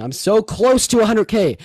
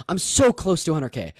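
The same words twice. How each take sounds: First: Excited plea. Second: Said in the usual way. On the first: Real, not acted. Begging chat for follows.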